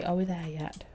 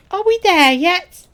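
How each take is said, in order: First: Said in the usual way. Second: Put-on loud, high, drawn-out kid's nagging; high, slow, loud pestering; impatient kid voice. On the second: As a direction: call it out like an impatient child. Voices impatient young game companion.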